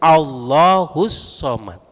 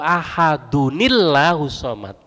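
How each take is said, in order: First: It starts fresh on a clear 'Al' sound. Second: It runs on with a linking 'nil' sound. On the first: The recitation stops before this phrase. "kalau wakof wajib Allahus somad" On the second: The recitation continues without stopping. "kalau diwasol"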